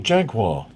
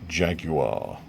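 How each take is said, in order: First: It is said with an American pronunciation. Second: It is said with a British pronunciation.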